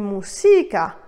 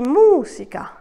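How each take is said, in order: First: The stress is on the second syllable. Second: The stress is on the first syllable. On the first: The speaker calls it wrong. "je n'ai pas dit música" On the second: The speaker calls it right. "j'ai bien dit música"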